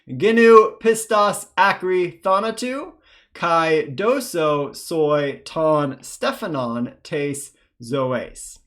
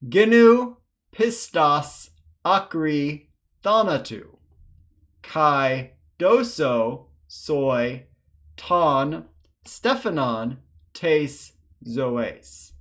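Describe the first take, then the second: First: It is read faster. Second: It is read slowly.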